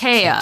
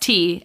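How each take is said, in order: First: It is two syllables starting with a 'tie' sound. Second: It is one syllable, like the drink tea. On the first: The speaker calls it wrong. "pronounced Taya?" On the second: The speaker calls it right. "No, bitch. Yep. That's T"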